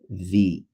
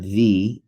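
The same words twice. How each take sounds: First: The vowel is short and clipped. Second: The vowel is drawn out and long. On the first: The speaker calls it right. "it's pronounced the" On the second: The speaker calls it wrong. "not the. You don't elongate it"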